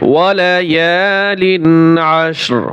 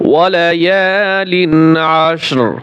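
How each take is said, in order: Both takes have the same delivery.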